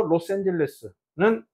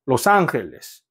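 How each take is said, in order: First: Reads 로스앤젤레스는 slowly as Spanish los Angeles; Spanish reading. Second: 로스앤젤레스 said as Spanish los Angeles, g like h; Spanish pronunciation. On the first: Teacher modelling 로스앤젤레스는 in Spanish pronunciation. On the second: Teacher repeating 로스앤젤레스 as Spanish for the class. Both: Shown as a demonstration. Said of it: "하나 읽어볼까요".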